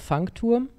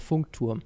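First: Funk is said like the English word funk. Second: Funk is said with a plain German vowel.

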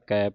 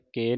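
First: The vowel is an 'ai' sound. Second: The vowel is an 'e' sound. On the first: The speaker calls it right. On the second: The speaker calls it wrong.

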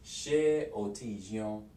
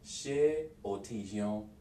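Both takes have the same delivery.

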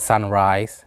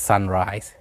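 Both takes have the same delivery.

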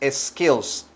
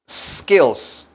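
First: An extra vowel sound comes before the s. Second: The word begins directly with the s sound. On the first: The speaker calls it wrong. "no es skills" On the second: The speaker calls it right. "Hay que decir skills"

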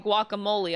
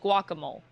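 First: It is said with the usual pronunciation. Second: It is said sounding out the spelling. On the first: The speaker calls it right. "If I didn't hear somebody say guacamole" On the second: The speaker calls it wrong. "I would read it like guacamole"

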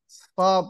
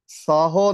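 First: The word ends without any final vowel sound. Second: The word ends with an added vowel sound. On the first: The speaker calls it right. "ਪੜਨਾ ਹੈ" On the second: The speaker calls it wrong. "ਨਹੀਂ ਪੜਨਾ ਹੈ"

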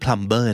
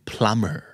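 First: The b sound is clearly pronounced. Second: The b sound is not pronounced. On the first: The speaker calls it wrong. "ไม่" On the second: The speaker calls it right. "silent, B, ไม่ออกเสียงเพราะฉะนั้นคำนี้คือ"

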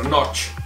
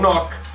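First: The word ends with a ch sound. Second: The word ends with a k sound. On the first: This is how the native speakers are thought to say it. "come la pronunciano loro non l'ho mai capito bene, ma dovrebbe essere Notch" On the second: This is the speaker's own habitual way of saying it. "io la chiamo Nok"

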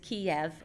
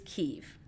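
First: The name has the Russian pronunciation. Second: The name has the Ukrainian pronunciation. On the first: "it is Kiev in Russian" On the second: "the pronunciation of the capital in Ukrainian is Kyiv"

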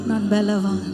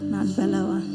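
First: It is said loudly and forcefully. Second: It is said at a normal, quieter volume.

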